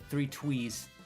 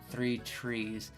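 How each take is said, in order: First: The second word has a W sound. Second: The second word has a clear R sound. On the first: The speaker calls it wrong. "I always want to say three twees" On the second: The speaker calls it right. "Why is it so hard for me to say that?"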